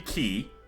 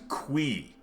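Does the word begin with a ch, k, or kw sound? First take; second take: k; kw. First: It begins with a plain k sound. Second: It begins with a kw sound. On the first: "so it could be key" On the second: "Eric says it's pronounced qui, which is fucking nonsense"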